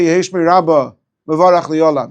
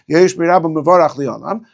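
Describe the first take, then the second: First: There is a pause after Rabba. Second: It flows without a pause after Rabba.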